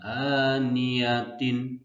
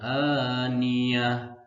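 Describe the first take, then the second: First: The word ends with a -tin syllable. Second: The word ends with a soft h sound. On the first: The speaker calls it wrong. "bukan aniyatin" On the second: The speaker calls it right. "Dibacanya aniyah"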